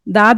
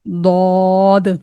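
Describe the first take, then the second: First: The letter is said with a light, thin sound. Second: The letter is said with a heavy, full sound. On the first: The speaker calls it wrong. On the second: The speaker calls it right.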